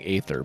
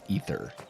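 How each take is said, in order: First: The first vowel sounds like 'ay'. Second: The first vowel sounds like 'ee'. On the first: The speaker calls it wrong. "I've been saying aether" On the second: The speaker calls it right. "but it's ether, I believe"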